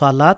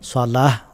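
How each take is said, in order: First: The word ends with a t sound. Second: The word ends with an h sound. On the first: The speaker calls it wrong. "সালাত না বলে" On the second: The speaker calls it right. "সালাহ বলবো"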